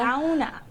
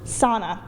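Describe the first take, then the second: First: It is pronounced the way Finns say it. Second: It is pronounced the way Canadians say it. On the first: "according to the Finns anyways" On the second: "I actually pronounce this word just like the Canadians"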